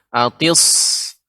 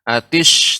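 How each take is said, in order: First: The consonant is a thick, heavy s sound. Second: The consonant is a hushing sh sound. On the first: The speaker calls it right. "sod seperti sin ya, tapi dia di isti'la ya, ditebalkan" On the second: The speaker calls it wrong. "jangan sampai berubah jadi ... ke shin"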